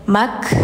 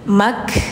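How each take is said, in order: First: The K ends with a flow of breath. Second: The K ends with a flow of breath.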